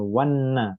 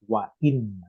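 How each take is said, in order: First: The two words run together without a break. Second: A glottal stop separates the two words. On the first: The speaker calls it wrong. "Bukan wanna" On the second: The speaker calls it right. "Hamzah di sini memutuskan antara bunyi wa sama inna. Nggak bisa nyambung"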